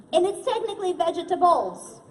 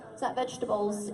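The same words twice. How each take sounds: First: "vegetables" as ve-ge-ta-bles, all four syllables spelt out; every syllable enunciated. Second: "vegetables" as three quick syllables, vej-tuh-bles; usual pronunciation. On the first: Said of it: "She just enunciates all the syllables". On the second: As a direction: drop the middle syllable of "vegetables". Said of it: "enunciates all the syllables". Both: Shown as a demonstration.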